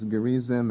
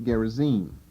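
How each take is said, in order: First: The stress is on the middle syllable. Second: The stress is on the last syllable. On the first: The speaker calls it wrong. "emphasizing the middle syllable instead of the last" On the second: The speaker calls it right. "Probably better pronounced Gerizim"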